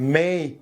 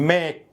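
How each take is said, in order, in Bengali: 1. স্বরটি e থেকে i-তে গড়িয়ে যায়। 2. স্বরটি একটাই স্থির ধ্বনি। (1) "বললে বেটার হয়" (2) "না বলে"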